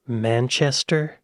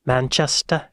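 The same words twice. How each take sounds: First: Said in the usual way. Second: Manchester accent. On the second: Shown as a demonstration. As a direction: drop the final R in Manchester, British style. Guessing an English accent, two takes.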